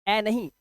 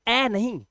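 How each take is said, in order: The two takes are said the same way.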